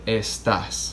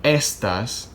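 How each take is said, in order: First: "estás" stressed on the last syllable; correct stress. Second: "estas" stressed on the first syllable; wrong stress. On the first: Spanish teacher showing the right word, "estás" stressed at the end. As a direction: lean on the final TÁS of "estás". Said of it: "We would say". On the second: Spanish teacher showing the wrong word, "estas" stressed up front. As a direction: punch the ES of "estas", not the end. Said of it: "So we wouldn't say". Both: Shown as a demonstration.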